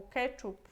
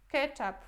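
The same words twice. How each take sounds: First: "ketchup" said as KE-tchup, with an oo vowel in the second syllable; first syllable stressed in "ketchup", second vowel a u. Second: "Ketchup" said as KE-tchap, with an a in the second syllable; "ketchap" pronunciation. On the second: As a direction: say "Ketchup" the Polish way, ending in -ap. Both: Shown as a demonstration. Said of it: "algumas pessoas falam ketchup, as outras ketchup".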